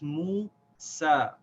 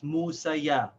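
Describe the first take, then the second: First: The name ends on a long "a" sound. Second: The name ends with an extra "ya" syllable. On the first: The speaker calls it right. "this ya is silent" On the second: The speaker calls it wrong. "you should not pronounce this Musaya"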